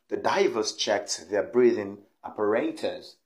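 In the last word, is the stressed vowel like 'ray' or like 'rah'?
ray. The stressed vowel in the last word sounds like 'ray'. This is the British pronunciation.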